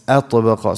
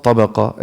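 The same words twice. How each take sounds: First: "atbaqa" opening on a clear "a" before the t; sounded initial hamza. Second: "tabaqa" starting straight on the t; missing initial hamza. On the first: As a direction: begin "atbaqa" with a distinct glottal "a". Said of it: "it's atbaqa". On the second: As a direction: drop the opening "a" and begin "tabaqa" on t. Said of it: "It's not tabaqa". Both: Shown as a demonstration.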